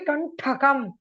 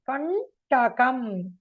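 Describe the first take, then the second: First: The middle t is said with aspiration. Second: The middle t is said without aspiration. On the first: The speaker calls it wrong. "Don't say Kantakam" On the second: The speaker calls it right. "Ta is not Mahaprana"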